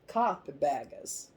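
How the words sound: It is said in a Southern accent.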